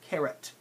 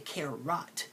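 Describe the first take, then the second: First: The second syllable has a reduced schwa vowel. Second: The second syllable has a full O vowel. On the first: The speaker calls it right. "the O is making a schwa sound" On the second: The speaker calls it wrong. "notice I don't say carrot"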